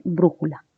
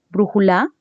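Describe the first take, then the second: First: "brújula" with the accent on BRÚ; correctly accented BRÚjula; stress on first syllable. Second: "brújula" stressed on LA, as brujuLÁ; misaccented "brújula", rising on the final LA; wrong final stress. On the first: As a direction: stress BRÚ and let "jula" fall away. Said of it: "Lo correcto es decir brújula". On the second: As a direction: throw the accent onto the last syllable of "brújula". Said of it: "son formas incorrectas". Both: Shown as a demonstration.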